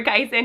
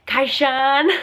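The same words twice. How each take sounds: First: Said in the usual way. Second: Kyson said as "Kaishan", SH for the S; imitated toddler's "Kaishan"; toddler pronunciation. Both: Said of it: "he doesn't say them exactly like that".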